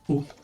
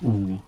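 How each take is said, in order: First: The vowel is said short. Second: The vowel is said long. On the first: "the short O would be U" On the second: "the long O would be U"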